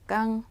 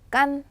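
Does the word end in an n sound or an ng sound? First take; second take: ng; n. First: The word ends in an ng sound. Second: The word ends in an n sound. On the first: This is how southern speakers say it. "남쪽 사람들은 깡이라고 합니다" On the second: This is the original standard pronunciation. "이거 원래 발음인데"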